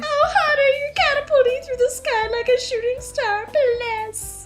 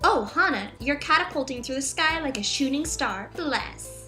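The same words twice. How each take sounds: First: It is read in a crying, weepy voice. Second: It is read in a plain voice.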